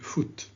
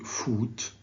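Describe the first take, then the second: First: The vowel is short, as in put. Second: The vowel is long, as in food. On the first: The speaker calls it right. "Please say foot, ... so it's a short back vowel" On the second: The speaker calls it wrong. "don't say foot"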